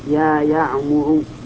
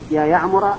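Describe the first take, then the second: First: The name ends with a short 'u' vowel. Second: The name ends with a short 'a' vowel. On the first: The speaker calls it right. "لقلت يا يعمر، لأن المنادى إذا كان علما وجب بناؤه على الضم" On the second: The speaker calls it wrong. "لأنه منصوب، فلو قلت يا يعمر يا يعمر ما صح، هذا لحن"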